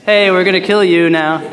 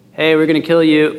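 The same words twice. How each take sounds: First: Higher, hammed-up threat with a punched Hey; mock angry threat. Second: Said in the usual way. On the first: Shown as a demonstration. Angry unbelievers threatening Gideon at his house, a hammed-up higher threat. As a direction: play the angry mob a bit more fiercely. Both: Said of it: "they probably didn't say it like that".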